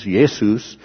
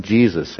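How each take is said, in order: First: Jesus said with a Y and hard S, like YAY-soos; Jesus as "Yesus", the early translation sound; Jesus pronounced YAY-soos, the way it first came across; old King James form. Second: Said in the usual way. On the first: Shown as a demonstration. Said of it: "first translation of the King James". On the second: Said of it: "in our more modern translations".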